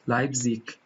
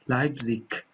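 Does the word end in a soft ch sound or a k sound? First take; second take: k sound; k sound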